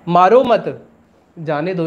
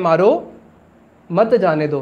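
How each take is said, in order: First: There is a pause after मत. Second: There is a pause after मारो.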